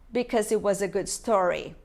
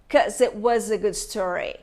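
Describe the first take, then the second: First: The first word is said in full. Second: The first word is shortened to its last syllable.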